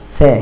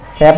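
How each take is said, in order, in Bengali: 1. স্বরধ্বনিটি একটি বিবৃত 'e' ধ্বনি। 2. স্বরধ্বনিটি একটি বিবৃত 'e' ধ্বনি।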